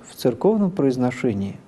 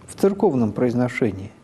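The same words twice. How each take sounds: The two takes are said the same way.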